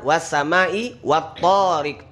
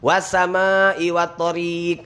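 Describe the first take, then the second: First: The first vowel of tariq is long. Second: The second vowel of tariq is long. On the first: The speaker calls it right. "Yang benar ... To-nya yang panjang" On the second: The speaker calls it wrong.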